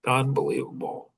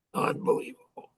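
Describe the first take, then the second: First: Said in the usual way. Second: Unbelievable, whispered in awe on a high breath; breathless whisper. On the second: Real, not acted. Marvelling at his amazing grandma, a hushed whisper. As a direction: let the word fall out as a hushed whisper.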